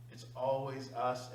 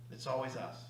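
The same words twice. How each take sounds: First: "It's always us" slowed, leaning on "always"; slow emphasis. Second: Said in the usual way. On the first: Shown as a demonstration. Driving the point home to the seminar room, slow and weighted. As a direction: drag out "always" to drive it home.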